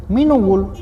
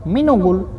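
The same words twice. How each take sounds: The two takes are said the same way.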